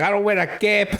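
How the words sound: It is said in an attempted Scottish accent.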